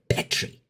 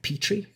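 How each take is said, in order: First: It is said with a non-American pronunciation. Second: It is said with an American pronunciation. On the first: "He's like Petri" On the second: "here in America, we pronounce that Petri"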